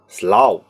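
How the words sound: It is said in a London Cockney accent. "他们会说呢slow"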